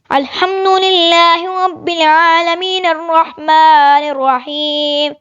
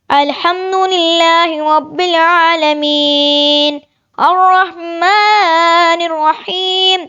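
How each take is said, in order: First: It runs on without a pause after العالمین. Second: It stops with a pause after العالمین.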